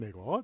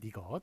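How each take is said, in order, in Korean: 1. 첫 음절의 모음은 'e'예요. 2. 첫 음절의 모음은 'i'예요. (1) "이렇게 발음해야 맞는데" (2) "잘못 발음한 거예요"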